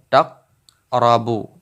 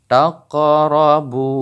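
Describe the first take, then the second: First: "taqrabu" with the q stopped flat; wrong way, no bounce. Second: "taqrabu" with a clear echo on the q; bounced qaf. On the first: Teacher showing the wrong reading, flat qaf. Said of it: "bukan taqrabu". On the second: Teacher showing the right reading, bounced qaf. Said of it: "tapi taqrabu". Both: Shown as a demonstration.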